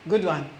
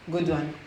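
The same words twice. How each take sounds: The two takes are said the same way.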